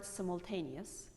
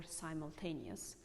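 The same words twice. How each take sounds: First: "simultaneous" opening with "sim"; short first vowel in "simultaneous"; "simultaneous" as "sim-ul-taneous"; British short I. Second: "simultaneous" opening with "sime"; long first vowel in "simultaneous"; "simultaneous" as "sigh-mul-taneous"; American long I. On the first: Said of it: "British people say". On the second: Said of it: "American people say". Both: Shown as a demonstration.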